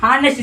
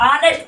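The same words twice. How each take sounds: First: "हार्नेस्ट" with the H sounded; mispronounced honest. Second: "ऑनेस्ट" beginning on the open vowel, no H; correct silent H. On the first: Teacher echoing the mistaken reading, H sounded in "हार्नेस्ट". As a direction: say "हार्नेस्ट" starting on an audible H. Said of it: "यहाँ पास ए नहीं लगेगा". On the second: Teacher correcting the student, "ऑनेस्ट" with silent H. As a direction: drop the H and say "ऑनेस्ट". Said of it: "silent हो जाएगा". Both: Shown as a demonstration.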